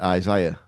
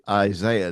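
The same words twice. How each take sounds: First: The name is said with an English pronunciation. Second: The name is said with an American pronunciation. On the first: "English people say Isaiah" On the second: "Americans say Isaiah"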